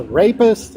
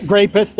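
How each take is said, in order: First: Said in the usual way. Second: "rapist" said with a hard g in front, as "grapist"; self-censored word. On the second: Real, not acted. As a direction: put a G sound on the start of "rapist". Self-corrects to a coded word.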